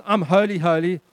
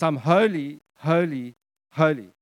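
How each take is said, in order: First: Said in the usual way. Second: "holy" three times, each on its own with a fall; emphatic triple repetition. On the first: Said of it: "It's not just". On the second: Shown as a demonstration. Preacher showing God's threefold statement, emphatic and spaced. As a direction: separate each "holy" with a weighty pause.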